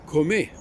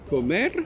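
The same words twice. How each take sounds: First: The final R is left silent. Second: The final R is clearly pronounced. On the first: The speaker calls it right. "Ils devraient dire comer" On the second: The speaker calls it wrong. "ils disent comer, alors qu'il n'y a pas de E"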